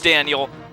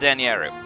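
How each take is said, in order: First: The name is said with an English pronunciation. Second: The name is said with a Japanese pronunciation. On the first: "my real name is Daniel" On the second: "with its Japanese pronunciation"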